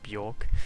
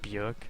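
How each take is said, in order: First: The vowel sounds like a plain 'o'. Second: The vowel sounds close to 'e', like jerk. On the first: "They try to just say it like Björk, so like the the O is an O" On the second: "like Björk sounds like jerk"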